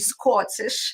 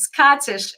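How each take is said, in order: First: The first vowel sounds like a rounded or. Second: The first vowel sounds like an open ah. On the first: "if you are in Europe, it would be Scottish" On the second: "So now it's Scottish"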